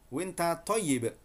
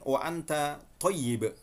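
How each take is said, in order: First: Saudi colloquial form, contracted to winta. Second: Full Standard form with two separate words, wa anta. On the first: "Yang Amiyah Saudi dibaca kullu sanah winta" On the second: "tulisannya sama"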